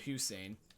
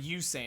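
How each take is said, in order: First: The name begins with a clear H sound. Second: The name begins with a vowel, without H. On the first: The speaker calls it right. "instead of Hussein" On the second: The speaker calls it wrong. "So I said Usain instead of Hussein"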